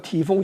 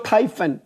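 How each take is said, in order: First: The name begins with a 'tee' sound. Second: The name begins with a 'tie' sound. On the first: The speaker calls it wrong. "其实这个发音是错误的" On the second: The speaker calls it right. "那个叫Typhoon"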